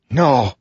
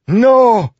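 First: High cry of disbelief; horrified cry. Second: Very high, loud scream of denial; horrified scream. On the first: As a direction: recoil in horror, pitch raised. Assassin recoils in horror. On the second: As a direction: scream it out in utter horror. Assassin's horror mounts to a scream. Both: A narrator's reading.

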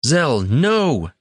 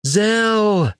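First: High shouted warning; shouting. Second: High anguished scream. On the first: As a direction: cry out to stop him. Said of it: "Tanner shouted". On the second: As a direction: scream his friend's name. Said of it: "Tanner screamed". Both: A narrator's reading.

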